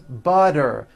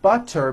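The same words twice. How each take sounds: First: The middle consonant is a voiced D sound. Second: The middle consonant is a clear T sound.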